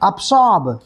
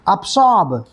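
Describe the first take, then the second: First: The middle consonant is an s sound. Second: The same.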